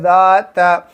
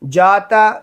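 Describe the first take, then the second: First: It starts with a z-like sound. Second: It starts with a j sound. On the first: The speaker calls it right. "ज़ाल निकालनी है" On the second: The speaker calls it wrong. "जाता नहीं"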